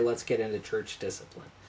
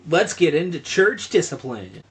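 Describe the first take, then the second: First: It is said in a normal speaking voice. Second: It is said in a put-on youth pastor voice.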